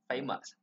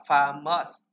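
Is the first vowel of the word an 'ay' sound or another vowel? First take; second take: ay; other. First: The first vowel is an 'ay' sound. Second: The first vowel is not an 'ay' sound. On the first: The speaker calls it right. "nó là âm A chỗ này. Chúng ta sẽ làm A" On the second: The speaker calls it wrong. "Không phải là famous"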